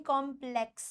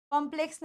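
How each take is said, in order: First: कॉम्प्लेक्स split as "kom... pleks"; low model of कॉम्प्लेक्स in two parts; correct कॉम्प्लेक्स. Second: कॉम्प्लेक्स run together as a mistake; soft, undivided कॉम्प्लेक्स; wrong कॉम्प्लेक्स. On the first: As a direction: separate the two syllables of कॉम्प्लेक्स, low and soft. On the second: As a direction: say कॉम्प्लेक्स quickly and softly, to be rejected. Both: Shown as a demonstration. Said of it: "कॉम्प्लेक्स नहीं".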